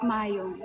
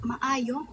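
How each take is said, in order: First: "maayong" run together as mayong, falling; "maayong" with the double a merged; alternative pronunciation. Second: "maayong" with both a's sounded apart, rising; "maayong" in three syllables, tentative; trying a pronunciation. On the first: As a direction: say "maayong" in two syllables, softer and lower. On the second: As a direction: sound out "maayong" as ma-a-yong, questioning. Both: Shown as a demonstration.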